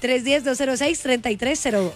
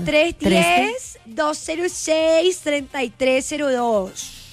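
First: The number is read quickly. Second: The number is read slowly.

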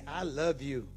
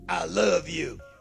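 First: It is said without any harsh attitude. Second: It is said with a harsh attitude.

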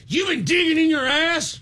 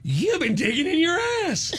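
First: It is said in an angry tone. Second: It is said in an excited tone.

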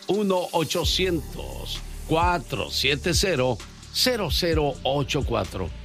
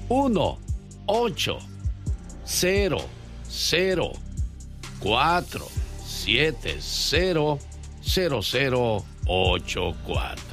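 First: The number is said fast. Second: The number is said slowly, digit by digit.

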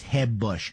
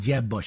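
First: The J is a soft, Spanish-style H sound. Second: The J is a hard English J sound.

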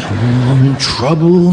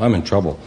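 First: It is said with strong childlike emotion. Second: It is said flatly, with little emotion.

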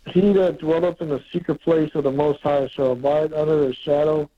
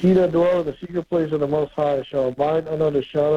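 First: It is read more slowly. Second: It is read quickly.

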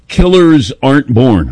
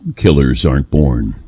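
First: It is said in a plain, everyday voice. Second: It is said in a dramatic announcer voice.

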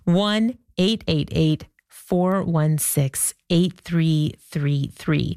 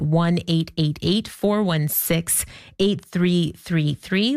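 First: The number is said slowly and carefully. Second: The number is said at normal speed.

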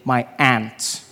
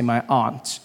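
First: Aunt is said like the insect 'ant'. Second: Aunt is said in the speaker's own accent.

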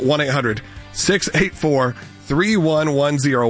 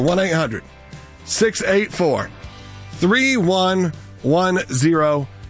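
First: The number is said at a normal, quicker pace. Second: The number is said slowly and deliberately.

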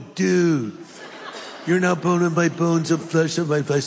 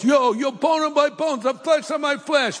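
First: It is said in a Californian accent. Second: It is said in an East Coast accent.

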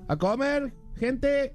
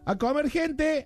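First: There is a pause before gente. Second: There is no pause before gente.

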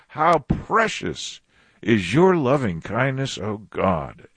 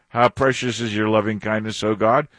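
First: It is said as a firm exclamation. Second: It is said as a wondering question.

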